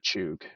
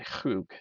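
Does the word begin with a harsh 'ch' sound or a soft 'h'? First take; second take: harsh ch; soft h. First: The word begins with a harsh throaty ch sound. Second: The word begins with a soft breathy h sound. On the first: The speaker calls it wrong. "don't say chug" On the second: The speaker calls it right. "Say Hug"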